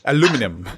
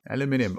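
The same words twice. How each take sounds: First: It is said the British way, five syllables. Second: It is said the American way, four syllables.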